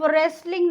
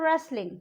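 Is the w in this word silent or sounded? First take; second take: sounded; silent. First: The w is pronounced as a sound. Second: The w is not pronounced at all. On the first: The speaker calls it wrong. "उसको हम रेसलिंग नहीं बोलते" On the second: The speaker calls it right. "हम उसको बोलते हैं रेसलिंग"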